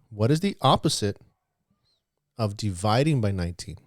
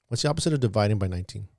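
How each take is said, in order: First: The question is said slowly. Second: The question is said fast.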